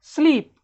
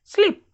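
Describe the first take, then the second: First: स्लीप with a long, held "ee"; long sound. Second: स्लीप with a short "i", as in slip; short sound. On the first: Teacher models for students to repeat, स्लीप with long "ee". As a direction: lengthen the vowel in स्लीप. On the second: Teacher gives the contrasting take, स्लीप with short "i". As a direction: make the vowel in स्लीप quick. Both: Shown as a demonstration. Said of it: "अब अपने से बोलो".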